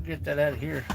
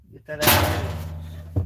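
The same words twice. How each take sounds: First: Said in the usual way. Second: Slow breathy whisper of "Get that out of here.". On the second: Pretend. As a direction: hush "Get that out of here." slowly under the breath. Repeats line two ways.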